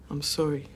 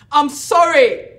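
First: It is said at normal, quieter volume. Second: It is said louder than before.

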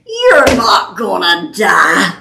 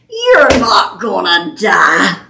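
First: It is said in a mocking tone. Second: The same.

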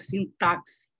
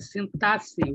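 First: The x is sounded as ks. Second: The x is sounded as s. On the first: The speaker calls it wrong. "e não é sintaxe" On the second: The speaker calls it right. "O sintaxe aqui tem som de SS"

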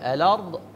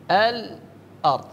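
First: The glottal stop is dropped and sounds run together. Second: A brief stop comes before the glottal stop.

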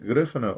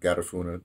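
First: The word is pronounced the Spanish way. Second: The word is pronounced the English way. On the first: "the Spanish" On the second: "or the English"

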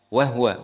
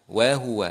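First: The middle 'u' vowel is dropped. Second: The middle 'u' vowel is clearly pronounced. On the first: The speaker calls it wrong. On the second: The speaker calls it right.

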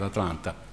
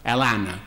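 First: It is said in a plain, neutral way. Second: It is said in a Southern US accent.

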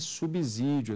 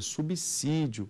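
First: The middle consonant sounds like a z. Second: The middle consonant sounds like an s. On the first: The speaker calls it wrong. "não é subsídio" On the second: The speaker calls it right. "é subsídio"

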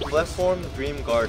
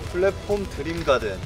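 First: The name is said with English-style pronunciation. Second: The name is said with Korean-style pronunciation.

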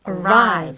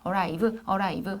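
First: One syllable is clearly stressed over the other. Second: Both syllables get roughly equal, flat weight. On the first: The speaker calls it right. "아까 뭐라고요?" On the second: The speaker calls it wrong. "arrive 하지 말고"

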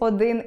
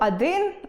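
First: The first vowel sounds like 'o'. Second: The first vowel sounds like 'a'. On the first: The speaker calls it right. "замість «один»" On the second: The speaker calls it wrong. "якщо я скажу «один» або «кали» замість"

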